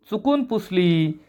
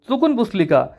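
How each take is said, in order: First: Slow, softer, stretched-out repeat; mild exasperation. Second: High-pitched questioning echo; doubting echo question. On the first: Anna repeats his excuse to Yasha, slow and quietly exasperated. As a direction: spell it out wearily for someone not listening. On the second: Panya echoes Anna's excuse back at him, high and doubting. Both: A narrator's reading.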